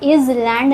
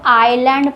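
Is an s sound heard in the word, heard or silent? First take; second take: heard; silent. First: An s sound is heard in the word. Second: No s sound is heard in the word. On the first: The speaker calls it wrong. "इज़लैंड नहीं पढ़ते हैं" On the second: The speaker calls it right. "इसको हम लोग आइलैंड पढ़ते हैं"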